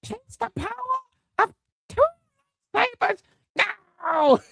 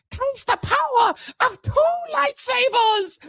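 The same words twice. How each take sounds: First: Mock villain boast again. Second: Mock villain boast. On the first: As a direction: squeal it like a cartoon hero. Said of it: "repeating Rey's boast". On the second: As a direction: shriek it triumphantly like a cartoon hero. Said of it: "she goes".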